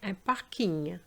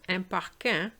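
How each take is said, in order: First: Parking is said with English sounds. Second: Parking is said with French sounds. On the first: The speaker calls it right. "the pronunciation is actually the English pronunciation" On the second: The speaker calls it wrong. "I heard"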